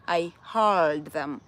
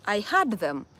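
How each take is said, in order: First: Slow, low "heard" with a long R-coloured vowel; American pronunciation. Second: "heard" said like "had"; Kenyan pronunciation. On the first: Showing the needed form, slow drawn-out "heard". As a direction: draw out "heard" so it differs from "had". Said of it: "I needed to say". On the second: Showing our Kenyan way, "heard" sounding like "had". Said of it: "That is our Kenyan language". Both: Shown as a demonstration.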